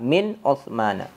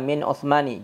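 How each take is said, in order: First: The name ends with an 'a' vowel. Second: The name ends with an 'i' vowel. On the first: The speaker calls it right. "gunakan fathah" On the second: The speaker calls it wrong. "Jangan dibaca"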